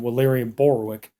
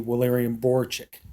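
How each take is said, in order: First: The surname ends with a 'wick' sound. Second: The surname ends with a 'chick' sound. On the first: This is the old mistaken form of the name. The speaker calls it wrong. "I kept calling him" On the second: This is the corrected form of the name. The speaker calls it right. "his name is actually"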